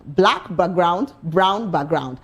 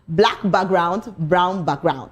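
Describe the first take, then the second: Both takes have the same delivery.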